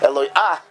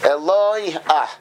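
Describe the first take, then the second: First: The stress falls on the last syllable. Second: The stress falls on the middle syllable. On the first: The speaker calls it wrong. "So you're not saying Eloi ah" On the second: The speaker calls it right. "you lengthen the lamed, because the trup is on the lamed"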